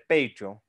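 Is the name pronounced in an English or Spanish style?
English. It is said with English-style pronunciation.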